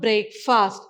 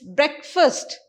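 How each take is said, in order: First: It is split into two separate words. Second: It is blended together as one word. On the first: The speaker calls it wrong. "you'll break this, you'll say break fast. It is not break fast" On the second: The speaker calls it right. "it's breakfast"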